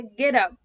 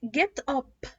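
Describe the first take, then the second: First: "get up" run together as "geddup"; slow "get up" as one word, tapped T; linked flap T. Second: "get up" as two words with a hard T; careful, unlinked "get up", T fully sounded; wrong pronunciation. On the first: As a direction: say "get up" slowly with the T turned into a quick D. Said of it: "لا، هي get up". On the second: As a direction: say "get up" with a crisp, released T. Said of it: "برضو مش بقولها get up". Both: Shown as a demonstration.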